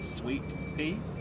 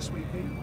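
First: It is pronounced in a careful, standard way. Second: It is pronounced in a relaxed, casual way. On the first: The speaker calls it right. "the proper pronunciation for that would be sweet pea" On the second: The speaker calls it wrong. "But the way that I say it"

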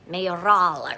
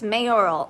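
First: The name is said with a Spanish pronunciation. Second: The name is said with an American pronunciation. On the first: This is how the name is said in Spain. "something fancy in Spain" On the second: This is how the name is said in the United States. "in the States"

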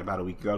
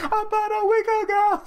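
First: It is said plainly, like a normal question. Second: It is said loudly in an exaggerated, over-the-top voice. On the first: The speaker calls it wrong. "No, you can't say like that" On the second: The speaker calls it right. "You gotta be like"

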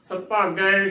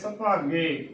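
First: The word ends in an 'ai' vowel. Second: The word ends in a plain 'e' vowel. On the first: The speaker calls it right. "ਗੱਗੇ ਨੂੰ ਦਲਾਵਾਂ ਗੈ ਸੁਭਾਗੈ ਸੁਭਾਗੈ ਸ਼ੁੱਧ ਉਚਾਰਨ ਹੈ" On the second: The speaker calls it wrong. "ਗੱਗੇ ਲਾਵਾਂ ਗੇ ਦੇ ਨਾਲ ਉਚਾਰਨ ਕਰ ਦਿੰਦੀਆਂ ਨੇ ... ਸੁਭਾਗੇ ਗਲਤ ਉਚਾਰਨ ਹੈ"

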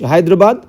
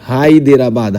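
First: No vowel is sounded between d and r. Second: A full vowel is sounded between d and r.

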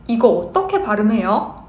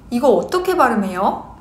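No difference in how they are said.

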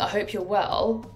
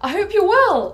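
First: It is said in a flat, neutral way. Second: It is said in a bright, cheerful way. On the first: The message might come across as cold. The speaker calls it wrong. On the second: The message comes across as friendly. The speaker calls it right.

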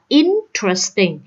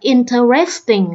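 First: The stress falls on the first syllable. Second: The stress falls on a later syllable. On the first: The speaker calls it right. "Đọc là interesting, cho nên nhấn âm thứ nhất" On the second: The speaker calls it wrong. "Đa số các bạn đọc là interesting là sai ha"

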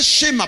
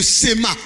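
First: The word begins with an sh sound. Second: The word begins with a plain s sound. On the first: The speaker calls it wrong. "C'est pas schéma, parce que le H ne se prononce pas en hébreu" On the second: The speaker calls it right. "C'est le sema"

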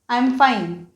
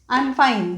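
No difference in how they are said.

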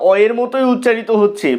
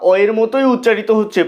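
Both takes have the same delivery.

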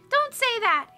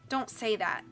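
First: It is said in a much higher voice. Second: It is said in a normal voice.

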